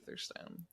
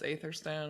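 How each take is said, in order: First: The name begins with an 'ee' vowel sound. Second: The name begins with an 'ay' vowel sound. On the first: This is the correct reading of the name. The speaker calls it right. "it's actually Etherstone" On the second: This is the mistaken reading of the name. The speaker calls it wrong. "up till this point we thought it was Aetherstone"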